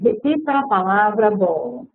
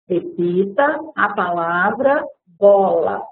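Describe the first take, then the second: First: It is said at a normal, even pace. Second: It is said slowly, with pauses and stretched syllables.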